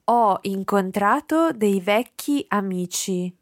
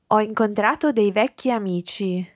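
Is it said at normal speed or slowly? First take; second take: slowly; normal speed. First: It is said slowly. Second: It is said at normal speed.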